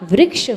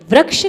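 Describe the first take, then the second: First: The r-syllable is said as 'ri'. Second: The r-syllable is said as plain 'ra'. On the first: The speaker calls it right. "होता है" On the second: The speaker calls it wrong. "नहीं होता"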